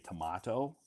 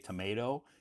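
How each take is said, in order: First: It is said with a British pronunciation. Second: It is said with an American pronunciation. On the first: "If you go to the U K, they say tomato" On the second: "In America, we say tomato"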